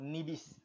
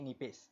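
First: The middle consonant is a b sound. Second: The middle consonant is a p sound. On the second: "dibaca dengan nipis"

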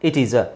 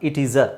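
No difference in how they are said.

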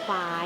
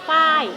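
First: The syllable is said on a rising tone. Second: The syllable is said on a falling tone. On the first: "เสียงจัตวา" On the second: "เสียงโท"

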